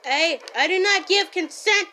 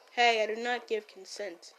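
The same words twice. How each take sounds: First: Loud indignant protest. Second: Said in the usual way. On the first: Shown as a demonstration. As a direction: shout the refusal this time.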